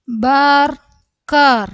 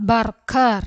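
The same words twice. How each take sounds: First: Slow, high, loud, broken in two; syllable by syllable. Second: Said in the usual way. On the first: Shown as a demonstration. Teacher breaking a word up for learners, syllable by syllable. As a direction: call out each syllable separately.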